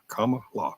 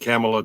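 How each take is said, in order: First: It begins like the word comma. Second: It does not begin like the word comma. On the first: The speaker calls it right. "It's comma, like the comma mark, and law" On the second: The speaker calls it wrong. "I was saying Kamala too"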